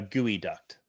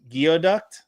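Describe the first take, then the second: First: The first part sounds like 'gooey'. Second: The first part sounds like 'gee-oh'. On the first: The speaker calls it right. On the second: The speaker calls it wrong.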